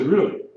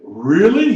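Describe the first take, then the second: First: It is said with sincere surprise. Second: It is said with sarcastic disbelief.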